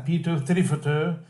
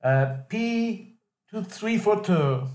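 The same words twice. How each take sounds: First: P two three four two with the stress on three and the tune rising at the end; P two three four two said with a lift on three; stressed rhythm. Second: P two three four two read flat and even, no stress on any word; P two three four two said like keying a pin number, every word level. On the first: Teacher modelling stressed rhythm for Robbie. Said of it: "It's more like this". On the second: Teacher showing Robbie the flat pin-number read. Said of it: "like a pin number". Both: Shown as a demonstration.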